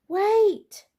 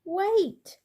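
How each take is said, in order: First: Much higher, much louder full bellow; huge high bellow. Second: Much higher, louder call after the cart. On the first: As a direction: bellow it at the leaving children. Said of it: "bellowed Mister Brown". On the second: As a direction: call after it, pitched high and loud. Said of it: "called Mister Brown". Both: A narrator's reading.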